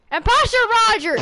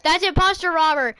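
First: High, quick mock alarm; pitched-up, hurried pretend accusation; urgent accusation. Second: Said in the usual way. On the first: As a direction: call out the impostor in playful alarm. Calling out the imposter in play.

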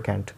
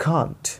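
First: Can't said American style, flat a; the American kent for can't. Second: Can't with a sound between k and kh, long a; British can't. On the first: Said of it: "ये American बोलते हैं can't". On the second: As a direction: say can't as khaant. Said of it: "क, ख के बीच वाला". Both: Shown as a demonstration.

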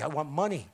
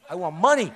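First: Low, lightly mocking greed chant; mock greedy voice. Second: Louder, laughing greedy mock; hammed-up greed with a laugh. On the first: Mocking his own past greed to the rally crowd, low mock-greedy voice. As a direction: play the greedy moneyman, half joking. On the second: Mocking his own past greed to the rally crowd, loud laughing mock-greed. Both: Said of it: "It's greed".

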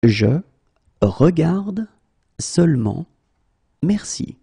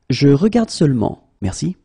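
First: Slow, word by word. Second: Said in the usual way. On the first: Shown as a demonstration. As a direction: pause between every word. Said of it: "teacher drills word by word". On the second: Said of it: "teacher repeats full sentence".

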